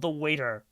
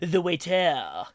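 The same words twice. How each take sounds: First: It is said in a plain English accent. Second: It is said in a put-on French accent. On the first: The speaker calls it wrong. "I didn't pronounce that right" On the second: The speaker calls it right. "that sounds like a French guy throwing up"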